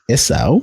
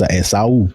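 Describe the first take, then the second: First: The name is said with English pronunciation. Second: The name is said with Yoruba pronunciation.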